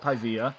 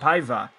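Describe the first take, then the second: First: The name ends with a 'vee-uh' sound. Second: The name ends with an 'eye-vuh' sound. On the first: The speaker calls it wrong. "not Paivia" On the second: The speaker calls it right. "It's Renan Paiva"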